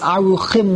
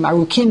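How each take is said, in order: First: The middle consonant is a raspy ch sound. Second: The middle consonant is a hard k sound. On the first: This is the customary form. "The minig is aruchim without a dot" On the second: This is the grammatically correct form. "Arukim with a dogish in the chaf is long life"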